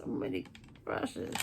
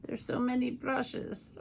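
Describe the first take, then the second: First: Breathy whisper of the phrase; whispered echo. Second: Said in the usual way. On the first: Real, not acted. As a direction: repeat it in a whisper. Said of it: "whispered echo". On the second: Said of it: "repeated phrase".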